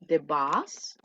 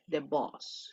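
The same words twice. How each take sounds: First: The bus, open short vowel, lower pitch; bus the vehicle. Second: The boss, long rounded o, low and soft; boss the chief. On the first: Teacher models the vehicle word bus. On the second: Teacher models the word for jefe, boss. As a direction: stretch the o in boss, de bosː. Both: Shown as a demonstration. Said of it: "¿Se, se escucha la diferencia un poquito?".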